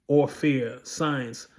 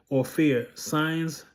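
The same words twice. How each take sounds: Both takes have the same delivery.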